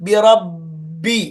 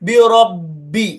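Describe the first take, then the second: The two takes are said the same way.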